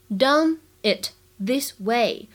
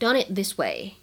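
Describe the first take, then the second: First: The words are said separately, without linking. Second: The words are linked, with the t not released.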